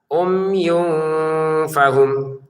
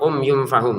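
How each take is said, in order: First: The nasal sound is held for two counts. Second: The nasal sound is cut short immediately. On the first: The speaker calls it right. "Ada ditahannya lah gitu" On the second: The speaker calls it wrong. "Jangan langsung umyum fahum gitu"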